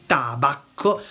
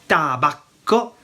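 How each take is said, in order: The two takes are said the same way.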